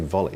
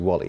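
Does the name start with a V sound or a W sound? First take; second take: V sound; W sound. First: The name starts with a V sound. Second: The name starts with a W sound. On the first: The speaker calls it wrong. "Now I say volley, and I've always said volley" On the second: The speaker calls it right. "but it's actually wally"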